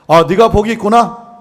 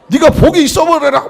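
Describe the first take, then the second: First: It is said flatly in a standard Seoul accent. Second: It is said excitedly in a southern dialect accent. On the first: The blessing is stated without much feeling. "서울 사람은 이게 말이 조금 감정이 안 실려" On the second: The blessing is given with great excitement. "남도로 가면은"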